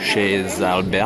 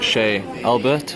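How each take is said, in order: First: The z of Chez links into Albert. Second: The z of Chez is silent.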